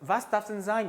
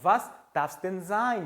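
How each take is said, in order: First: The word 'denn' is reduced and barely audible. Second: The word 'denn' is pronounced clearly.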